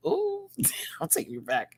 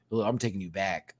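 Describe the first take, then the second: First: Whispered with a laugh. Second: Said in the usual way. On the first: Real, not acted. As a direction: breathe it out nostalgically. Whispered nostalgic repeat.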